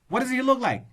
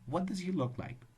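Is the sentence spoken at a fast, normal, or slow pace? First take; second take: fast; normal. First: The sentence is spoken very quickly. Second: The sentence is spoken at a normal speed. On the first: The speaker calls it wrong. "reading fast does not mean that you're fluent. If you say" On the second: The speaker calls it right. "Just be normal"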